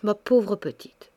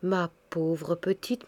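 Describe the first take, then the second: First: Said in the usual way. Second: Slow, softer pitying murmur; slow, tender pity for a grieving young wife. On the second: A narrator's reading. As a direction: soothe her gently, very slowly. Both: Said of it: "reprit avec pitié".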